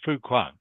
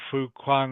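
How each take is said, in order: First: The pitch moves up and down naturally. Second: The pitch stays flat and unnatural. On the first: The speaker calls it right. "you can hear my voice is going up and down" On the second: The speaker calls it wrong. "instead of sounding like"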